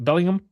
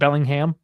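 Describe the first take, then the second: First: The name is said in a relaxed, reduced way. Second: Every syllable of the name is fully pronounced. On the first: This is how an English person would say it. The speaker calls it right. "Is it Bellingham?" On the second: This is an outsider's over-careful way of saying it. The speaker calls it wrong. "Not Bellingham. am I overpronouncing that for an Englishman?"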